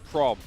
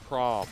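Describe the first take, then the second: First: It is said in an Australian accent. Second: It is said in an American accent. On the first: "when I say it in my accent" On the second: "And you're like"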